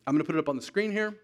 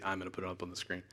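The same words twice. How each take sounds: First: Said in the usual way. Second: Softer, mocking his own words; a muttered echo of himself, gently teasing; mock quiet self-quote. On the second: Preacher quietly mocking his own slip about the screen. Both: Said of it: "I say".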